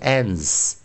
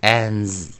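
First: The word ends with a voiceless s sound. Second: The word ends with a voiced z sound. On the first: The speaker calls it wrong. "不是ans" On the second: The speaker calls it right. "最后念z 啊，浊化浊音啊"

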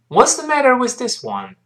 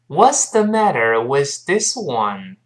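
First: The sentence is said faster. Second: The sentence is said slowly. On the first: "我们快一点。" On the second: "我们慢慢读一下这句话"

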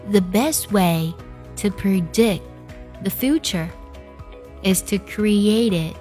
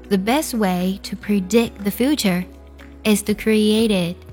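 First: The sentence is spoken at a slow pace. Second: The sentence is spoken at a normal pace.

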